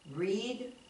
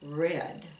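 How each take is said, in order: First: The vowel is a long ee sound. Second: The vowel is a short e sound. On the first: It is the present tense. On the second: It is the past tense.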